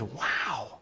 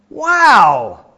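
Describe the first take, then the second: First: Very soft, hushed wow; awed wow. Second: Loud, high, drawn-out wow; enthusiastic wow. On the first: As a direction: breathe out a small acted wonder. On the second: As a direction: let the admiration burst out, hammed-up. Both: Acted. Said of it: "wow quite with the same enthusiasm".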